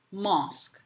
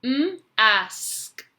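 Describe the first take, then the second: First: Said in the usual way. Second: M held apart from a drawn-out "ask", higher and louder; sounding out. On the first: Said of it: "you're going to read the word". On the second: Shown as a demonstration. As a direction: split it as M, then ask. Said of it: "say the letters as you're writing".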